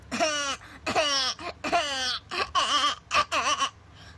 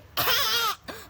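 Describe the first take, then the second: First: Put-on high wobbly shaky baby cry; wobbly infant sobbing. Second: Put-on harsh, loud, high baby scream; grating angry infant wail; too-aggressive baby screech; aggressive baby cry. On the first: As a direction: shake the voice in a baby wail. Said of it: "your voice at its normal tone". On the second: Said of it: "That's, like, too aggressive". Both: Shown as a demonstration.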